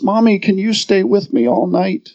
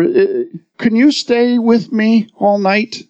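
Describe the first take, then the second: First: Put-on a touch of a timid small child; lightly voiced scared little boy; little boy's trembling voice. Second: Put-on lightly trembling small boy, higher and slow; a hint of a scared little boy asking; little boy's trembling voice. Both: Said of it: "In his little trembling voice".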